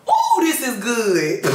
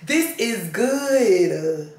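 First: High, slow and delighted ooh. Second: Very slow, stretched-out relish on this is good; drawn-out relish. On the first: A woman reading Exodus, thrilled by Aaron's excuse, slow and delighted. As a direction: savor the passage out loud with delight. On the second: The same woman repeating her praise of the passage, very slowly and savoring. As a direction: drag each word out like tasting it. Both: Real, not acted.

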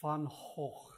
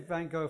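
First: "Van Gogh" as Dutch fun-KHOKH, throaty fricatives; Dutch pronunciation. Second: "Van Gogh" with English G and silent ending, van-GO; anglicized pronunciation. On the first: Questioner attempting the hard original, Dutch pronunciation. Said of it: "I find it quite hard to say". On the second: Questioner explaining an easier choice, anglicized pronunciation. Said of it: "I just say Van Gogh for comprehensibility". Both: Shown as a demonstration.

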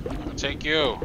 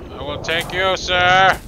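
First: Said in the usual way. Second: High, loud playful threat; playfully belting out the threat; mock menacing. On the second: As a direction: build to a loud, high SIR. Repeats playful threat, building up.

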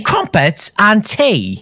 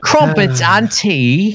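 First: Slow posh drawl with falling end on "tea"; mock British accent. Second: Mock British accent. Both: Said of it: "Keep saying that".

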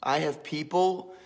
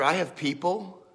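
First: "people" leaned on, mock grand; stress on people. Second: "have" leaned on, mock grand; stress on have. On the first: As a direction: push "people" like a big shot boasting. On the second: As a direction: land on "have" like a big shot. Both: Shown as a demonstration.

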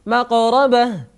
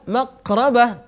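First: "مقربة" with the ق bounced, like a tiny echo; higher-pitched "مقربة", releasing ق with a rebound; qalqala on ق. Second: "مقربة" with a stopped ق and no bounce; tense, unreleased ق in "مقربة"; ق without qalqala. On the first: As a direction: let the ق in "مقربة" spring off before the ر. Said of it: "الأسهل أن تقول". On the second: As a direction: hold the ق tight in "مقربة", then push into the ر. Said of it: "خير من أن تقول مقربة، فيحدث انزعاج". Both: Shown as a demonstration.

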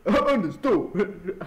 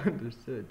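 First: Said through a laugh, slow; cracking up mid-word. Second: Said in the usual way. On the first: Real, not acted. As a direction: giggle out the word. Laughing at own line.

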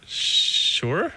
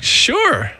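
First: Drawn-out, rising, unsure reply; hesitant agreement. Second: High, falling, eager reply; eager agreement. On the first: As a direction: stretch the sh, then rise uncertainly. Hesitant answer to daunting request. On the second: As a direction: jump at the offer with a pitched-up voice. Eager answer to writing invitation. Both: Retold or imitated.

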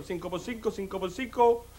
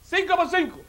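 First: Low, hushed working-out; great-grandfather pondering. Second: High, announced quiz question; executioner quizzing. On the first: Condemned ancestor works out the executioner's sum, pondering softly. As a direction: repeat the sum softly to yourself. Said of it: "dice mi tatarabuelo". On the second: Executioner tests the condemned man with a sum, called out high. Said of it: "Le voy a hacer una cuenta". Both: Acted.

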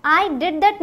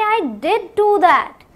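First: Said in the usual way. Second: "did do" stretched slow, stressed; emphatic did. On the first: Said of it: "normal है". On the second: Shown as a demonstration. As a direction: insist it was done. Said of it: "लेकिन जोर देके बोलेंगे". ("did do" पर ज़ोर देकर धीरे)

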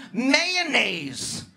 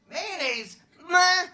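First: Said in the usual way. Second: High, disgusted whine on mayonnaise; disgusted mayo. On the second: Shown as a demonstration. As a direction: turn your nose up at Mayonnaise.

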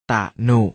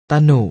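First: ตะหนุ split as ตะ, short pause, หนุ; ตะหนุ with a clear break after a short ตะ; syllable-by-syllable reading. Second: Said in the usual way. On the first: Shown as a demonstration. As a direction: sound out ตะหนุ in two separate syllables. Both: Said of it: "อ่านว่า".

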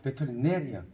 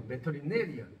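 First: 배터리네리언 repeated with the stressed syllable hit; teacher repeats 배터리네리언 with its stress. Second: 배터리네리언 said with the stress placed where marked; teacher shows where the stress falls in 배터리네리언. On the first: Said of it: "여기 강세". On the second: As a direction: mark the stress on 배터리네리언 clearly. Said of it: "여기, 여기 강세 찍어". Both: Shown as a demonstration.

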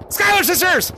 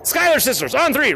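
First: Scream. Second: Said in the usual way. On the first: Real, not acted. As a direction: belt it out on three. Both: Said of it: "we're screaming the [name] sisters".

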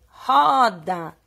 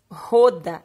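First: "roda" drawn out with an open O, like "ó"; correct open O. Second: "roda" with a closed O, like "ô"; wrong closed O. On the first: Teacher gives pupils the right reading, open O. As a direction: stretch "roda" loudly on a wide-open O. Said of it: "O O com som do O". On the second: Teacher shows pupils the wrong reading, closed O. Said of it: "Ele não faz roda". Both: Shown as a demonstration.

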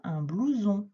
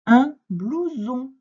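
First: Said in the usual way. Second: Slow, loud, high word presentation; emphatic dictation. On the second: Shown as a demonstration. Teacher giving a pupil the next word, emphatic dictation. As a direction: announce the new word slowly and strongly.

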